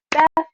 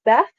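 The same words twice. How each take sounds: First: Beth set apart as one clean, higher beat. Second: Said in the usual way. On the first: Shown as a demonstration. Teacher demonstrating sister's name, Beth as one beat. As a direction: clap out Beth as a single syllable. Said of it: "That's one". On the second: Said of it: "so we would say Beth".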